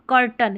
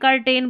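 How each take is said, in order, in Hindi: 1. दूसरा अक्षर घटकर 'tn' हो जाता है। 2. दूसरे अक्षर में पूरा 'ten' स्वर है। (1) "कर्टन इसका सही उच्चारण है" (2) "उसको कर्टेन कर्टेन बोलते हैं"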